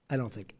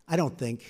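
First: Much softer, fading to almost nothing; trailing off. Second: Said in the usual way. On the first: Real, not acted. Speaker at the podium, trailing off much softer. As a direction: let the words die away as you finish. Repeated phrase, second fainter.

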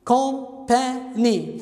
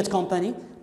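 First: "company" broken into three slow, separate syllables; very slow, segmented "company" for counting syllables. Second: Said in the usual way. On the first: Shown as a demonstration. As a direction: count out "company" as com, pa, ny with clear gaps. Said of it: "تذكرون كيفية الحساب المقاطع الصوتية للكلمة". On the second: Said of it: "كم مقطع صوتي بكلمة company".

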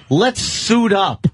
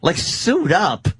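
First: Slow, drawn-out bossy order, raised; mock boss command. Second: Slow disbelieving repeat; incredulous echo. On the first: Boss orders his helper to get dressed, slow pompous command. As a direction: ham up the boss telling him to suit up. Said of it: "he'd go". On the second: Retold or imitated. Mocking echo of boss's order, slow and incredulous. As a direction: scoff at the order.

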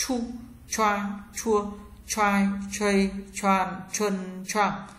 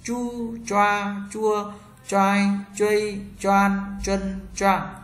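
First: "Chu, choa, chua, choai, chuây, choan, chân, choang" with curled tongue and a puff of air; heavy breathy-released ch on "Chu, choa, chua, choai, chuây, choan, chân, choang"; aspirated retroflex ch. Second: "Chu, choa, chua, choai, chuây, choan, chân, choang" with curled tongue, no air puff; slow unaspirated zh on "Chu, choa, chua, choai, chuây, choan, chân, choang"; retroflex zh. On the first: Teacher drills ch for learners, "Chu, choa, chua, choai, chuây, choan, chân, choang" aspirated. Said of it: "C H cong lưỡi bật hơi trở nặng".

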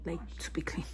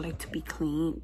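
First: Whispered, much softer; whispered repeat. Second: Said in the usual way. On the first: Real, not acted. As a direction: drop it to a whisper. Repeats phrase, second time whispered.

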